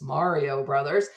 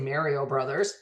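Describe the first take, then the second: First: The 'a' has the standard, non-Canadian vowel. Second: The 'a' has the speaker's Canadian vowel. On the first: The speaker calls it right. "but it's Mario Brothers" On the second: The speaker calls it wrong. "I would say Mario Brothers"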